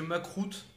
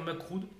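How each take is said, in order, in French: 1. Le mot se termine par un son t dur. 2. Le mot se termine par un son d doux. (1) "parce que Macroute, ça craint" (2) "essayez de dire Macroud"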